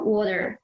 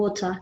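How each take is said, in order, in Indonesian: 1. Diucapkan dengan aksen Amerika. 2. Diucapkan dengan aksen Inggris baku. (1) "Di American kan water" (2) "air di British yang standar itu kan water"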